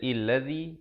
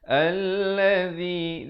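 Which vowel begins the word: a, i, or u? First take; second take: i; a. First: The word begins with an i vowel. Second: The word begins with an a vowel. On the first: The speaker calls it wrong. "Jangan baca illazi" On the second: The speaker calls it right. "tapi baca allazi"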